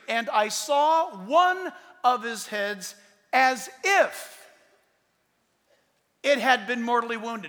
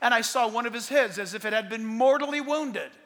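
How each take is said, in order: First: The sentence is read slowly and exaggerated. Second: The sentence is read at a normal pace.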